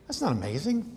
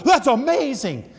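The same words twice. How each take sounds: First: Said in the usual way. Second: High, loud, drawn-out exclamation; gushing amazement. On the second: Retold or imitated. Grandparent cheering a long soccer shot, gushing amazement. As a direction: stretch it out in mock wonder.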